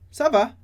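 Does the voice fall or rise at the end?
fall. The pitch falls at the end. It answers that all is fine. "na resposta"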